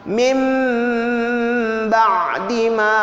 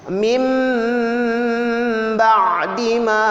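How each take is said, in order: No difference in how they are said.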